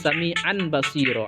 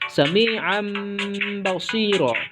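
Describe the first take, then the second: First: The ending before basiro sounds like n. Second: The ending before basiro sounds like m. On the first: The speaker calls it wrong. "Tidak boleh" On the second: The speaker calls it right. "tanwin itu dijadikan bunyinya seperti huruf mim"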